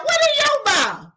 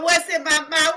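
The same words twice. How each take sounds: First: Much higher mocking echo. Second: Said in the usual way. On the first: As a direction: squeak it back mockingly. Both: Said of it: "Talking about".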